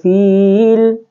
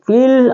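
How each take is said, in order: First: The vowel is drawn out long. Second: The vowel is short, going straight into l. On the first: The speaker calls it wrong. "jadi tidak boleh fil" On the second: The speaker calls it right. "tapi fil"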